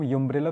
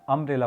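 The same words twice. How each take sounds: First: यूम्ब्रेला with a "you" sound at the start; यूम्ब्रेला starting "yoo", mock-wrong; wrong pronunciation. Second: अम्ब्रेला with a short "uh" at the start; अम्ब्रेला opening on "um", not "yoo"; correct pronunciation. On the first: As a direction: say यूम्ब्रेला as "yoom-brela", the mistaken way. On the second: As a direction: say अम्ब्रेला as "um-brela". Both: Shown as a demonstration. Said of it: "तो इसको हम यूम्ब्रेला तो नहीं पढ़ रहे हैं ना".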